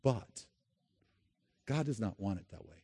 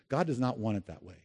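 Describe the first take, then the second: First: It is said at normal volume. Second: It is said very loudly and clearly.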